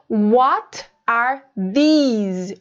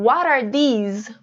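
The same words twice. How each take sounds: First: The words are separate, with a clear t. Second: The words are linked, with an r-like t.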